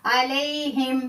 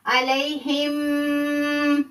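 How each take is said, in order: First: अलैहिम said crisply, the meem clear with no nasal hold; correct clear reading. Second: अलैहिम stretched very slowly, the meem held long; wrong drawn-out reading. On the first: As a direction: say अलैहिम cleanly at normal speed. (अलैहिम साफ़ और सीधा, इज़हार के साथ) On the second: (अलैहिम को बहुत खींचकर, गलत तरीके से) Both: Shown as a demonstration. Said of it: "ऐसे नहीं पढ़ेंगे".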